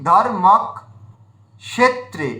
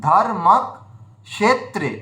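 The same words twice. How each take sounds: The two takes are said the same way.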